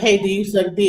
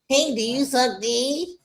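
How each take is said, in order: First: It is said in a tough street manner. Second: It is said in a meek, unstreetwise manner.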